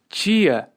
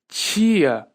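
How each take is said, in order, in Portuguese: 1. A palavra começa com o som de 'ch'. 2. A palavra começa com o som de 'ch'.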